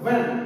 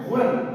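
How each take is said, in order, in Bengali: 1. এটি গুঞ্জনযুক্ত 'v' ধ্বনি দিয়ে শুরু। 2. এটি শ্বাসযুক্ত 'bh' ধ্বনি দিয়ে শুরু। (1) "কিন্তু ভ্যান" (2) "আমরা বলি ভ্যান"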